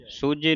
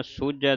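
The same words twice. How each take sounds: First: ਸੂਝੇ ending in a closed e; wrong pronunciation. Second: ਸੂਝੈ ending in an open ai; correct pronunciation. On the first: Teacher warning the congregation off a misreading, wrong pronunciation. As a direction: end ਸੂਝੇ on ay. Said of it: "ਸੂਝੇ ਨਹੀਂ ਪੜ੍ਹ ਦੇਣਾ". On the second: Teacher showing the double vowel sign, correct pronunciation. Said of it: "ਸੂਝੈ ਦਲਾਵਾਂ ਦੇ ਨਾਲ". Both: Shown as a demonstration.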